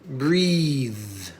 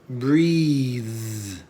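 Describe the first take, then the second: Both takes have the same delivery.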